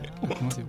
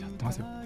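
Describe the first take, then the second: First: The voice is pitched higher and brighter. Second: The voice is pitched low and subdued. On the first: The speaker calls it right. "ちょっと変えてみようかな。" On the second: The speaker calls it wrong. "なんで声のトーンが下がるの、そこで。"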